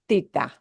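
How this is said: The first consonant is a th sound. This is how it sounds in Spain. "in Spain, Spanish"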